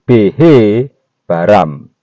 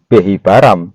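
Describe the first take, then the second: First: The he sound is spoken as its own syllable. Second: The he sound blends smoothly into the word. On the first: It means created with the letter he. The speaker calls it right. "huruf he harus dibaca tersendiri" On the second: It simply means created. The speaker calls it wrong. "bunyinya bukan Behi Baram"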